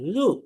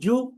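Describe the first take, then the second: First: It starts with a soft dh, tongue touching teeth. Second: It starts with a j sound like English jew. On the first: The speaker calls it right. "খুব নরম, পাতলা" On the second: The speaker calls it wrong. "কিন্তু আমরা এটাকে বলি আউ, জু"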